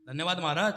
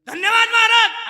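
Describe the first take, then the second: First: Said in the usual way. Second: High, booming mock announcement; over-loud thanks. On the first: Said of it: "हळू बोल". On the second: Villager giving the vote of thanks after kirtan, shouted. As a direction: blast it out far too loudly, stretched. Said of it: "अरे हळू बोल रे बापा".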